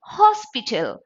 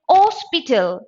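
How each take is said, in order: First: "hospital" with a clear H at the front; sounded H. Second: "hospital" said as "ospital"; wrongly silent H. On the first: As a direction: breathe out the H in "hospital". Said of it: "It is hospital". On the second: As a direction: drop the H from "hospital". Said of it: "you cannot say hospital". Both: Shown as a demonstration.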